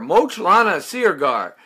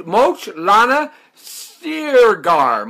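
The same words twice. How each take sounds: First: Said in the usual way. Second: "Moch Lana Sirgar" sounded out syllable by syllable, very slow; feeling his way through "Moch Lana Sirgar"; careful name attempt. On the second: Shown as a demonstration. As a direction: spell out "Moch Lana Sirgar" slowly, unsure of each part. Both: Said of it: "Mocha or Mo".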